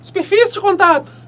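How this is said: It is said in a put-on little voice.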